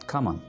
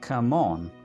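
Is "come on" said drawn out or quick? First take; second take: quick; drawn out. First: It is said short and quick. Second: It is said slowly and drawn out. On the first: The speaker calls it right. "Simply इतना बोलेंगे" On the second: The speaker calls it wrong. "इसको इतना लंबा बोलने की ज़रूरत नहीं है"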